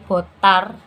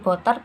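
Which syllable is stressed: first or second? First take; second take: second; first. First: The stress is on the second syllable. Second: The stress is on the first syllable. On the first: It means wine. "dengan tekanan pada suku kedua sehingga menjadi botar berarti anggur" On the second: It means blood. "dengan tekanan pada suku awal sehingga menjadi botar berarti darah"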